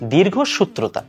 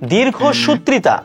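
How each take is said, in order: First: The syllable after 'sut' has an 'ro' sound. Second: The syllable after 'sut' has an 'ri' sound. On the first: The speaker calls it right. "মূলত শব্দটা হচ্ছে দীর্ঘসূত্রতা" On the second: The speaker calls it wrong. "পুরোটাই ভুল"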